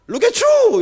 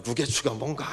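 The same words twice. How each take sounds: First: "look at you" in a high, loud, hammed-up North American accent; mock the buttery pronunciation of "look at you". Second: Said in the usual way. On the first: Pastor mocking a colleague's overdone North American accent. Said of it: "버터 발음이 돼가지고". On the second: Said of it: "제가 뭐".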